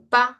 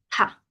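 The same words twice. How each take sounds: First: The p has no puff of air. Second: The p has a strong puff of air. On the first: The speaker calls it wrong. "No pa de papá" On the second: The speaker calls it right. "sino de pa, ¿sí? Asustado"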